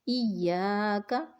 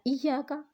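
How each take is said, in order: First: The vowel after 'ya' is held long. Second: The vowel after 'ya' is cut short. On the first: The speaker calls it right. "अलिफ मदा को एक अलिफ के बराबर लंबा करना है" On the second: The speaker calls it wrong. "लेकिन हमने पढ़ लिया इया का, तो ये हमने लहने जल्दी की"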